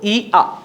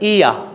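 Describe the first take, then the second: First: The two vowel sounds are said separately. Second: The two vowel sounds glide smoothly together. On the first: The speaker calls it wrong. "ই আ এভাবে করে বলতে হবে না" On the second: The speaker calls it right. "এটাকে glide করে বলতে হবে"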